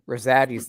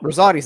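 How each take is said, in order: First: The name is said with a Pennsylvania Dutch pronunciation. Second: The name is said with an Italian pronunciation. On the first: It follows the local regional habit. The speaker calls it wrong. "Rosati's like that Pennsylvania Dutch" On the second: It keeps the name's original form. The speaker calls it right. "Rosati's Italian"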